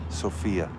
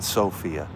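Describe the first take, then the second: First: The name does not sound like 'sofa'. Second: The name sounds like the word 'sofa'. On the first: The speaker calls it right. "Sophia, not Sophia" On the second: The speaker calls it wrong. "Sophia sounds like like I'm calling you a couch"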